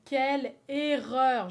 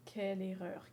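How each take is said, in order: First: Loud and slow, drawn out; loud slow lament. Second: Said in the usual way. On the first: Shown as a demonstration. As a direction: wail it out slowly.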